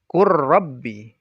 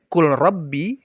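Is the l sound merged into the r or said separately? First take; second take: merged; separate. First: The l merges fully into a doubled r. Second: The l is pronounced clearly before the r. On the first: The speaker calls it right. "tetapi dibaca kur rabbi" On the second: The speaker calls it wrong. "tidak dibaca kul rabbi"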